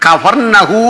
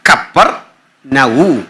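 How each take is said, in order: First: It is said as one word, Kafarnahum. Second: It is said as two parts, Kapper Nahu. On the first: The speaker calls it wrong. "നമ്മൾ ഈ പറയുന്ന കഫർനഹൂം എന്നല്ല ശരിക്കും പറയണ്ടേ" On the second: The speaker calls it right. "ശരിക്കും പറയണ്ടേ"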